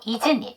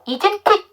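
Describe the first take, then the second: First: The t sound in isn't is dropped entirely. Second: The t sound in isn't is clearly pronounced. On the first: "두 번째 자음 하지 마시고" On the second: "isn't it 이렇게 해도 되기 때문에"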